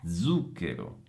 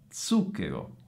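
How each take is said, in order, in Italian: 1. La z è sonora, come dz. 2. La z è sorda, come ts. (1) "io le ho pronunciate con la Z sonora" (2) "pronunciate con la Z sorda"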